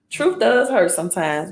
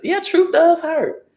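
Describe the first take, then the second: First: Said in the usual way. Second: High, slow, leaning hard on does; emphatic agreement. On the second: Real, not acted. Answering the viewer who wrote truth hurts, emphatic agreement with stress on does. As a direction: stretch out "truth does hurt" and punch does.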